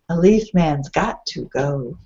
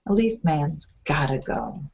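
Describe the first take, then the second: First: "Got to" is said as two full words. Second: "Got to" is reduced to "gotta". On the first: The speaker calls it wrong. "Sounds odd" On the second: The speaker calls it right. "I want to say gotta"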